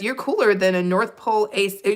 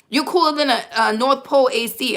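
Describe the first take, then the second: First: It is read in the speaker's ordinary accent. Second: It is said in an attempted Brooklyn accent.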